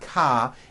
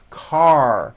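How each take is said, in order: First: It ends on an open vowel without R. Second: It ends with a strong R sound. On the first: The speaker calls it wrong. "ending with an A vowel" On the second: The speaker calls it right. "Your tongue has to pull back"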